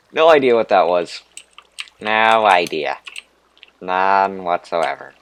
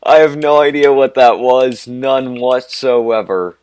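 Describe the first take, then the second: First: Put-on Valley Girl voice. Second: Put-on much higher, much louder Valley Girl squeal, slowing on whatsoever. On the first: Gamer lost in a cave, goofing in a Valley Girl voice. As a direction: slide into a ditzy Valley Girl lilt. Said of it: "That's a really weird voice". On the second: Gamer repeating the line as an over-the-top Valley Girl. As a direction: ham up the Valley Girl bit, full volume. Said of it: "almost a Valley Girl accent".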